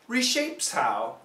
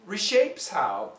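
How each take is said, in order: Both takes have the same delivery.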